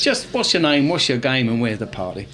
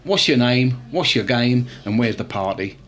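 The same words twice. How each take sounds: First: Smooth cheesy chat-up line, dropping lower at the end; a second go at the cheesy pickup line. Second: Smooth pickup-line delivery; cheesy bar pickup line, falling lower to the end. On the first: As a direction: deliver it like a market trader's line. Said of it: "give it a try". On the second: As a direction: sell it like a cheesy chat-up line. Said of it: "I'm gonna give you a hit online". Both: Shown as a demonstration.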